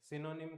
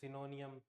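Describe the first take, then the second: First: The word ends with a short '-nim' sound. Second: The word ends with an extra '-nium' sound. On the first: The speaker calls it right. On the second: The speaker calls it wrong.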